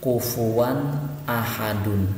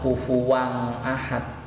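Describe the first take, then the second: First: The n sound before ahad is clear. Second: The n sound before ahad is blurred. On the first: The speaker calls it right. "harus jelas" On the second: The speaker calls it wrong. "tidak bisa"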